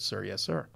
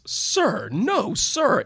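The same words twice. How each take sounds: First: Said in the usual way. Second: Loud, high booming "Sir, no, sir". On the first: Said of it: "he broke his voice inflection". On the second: Retold or imitated. Trooper answers the public defender's question, booming loud. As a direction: boom it out like a trooper on the stand. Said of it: "he said in a booming voice".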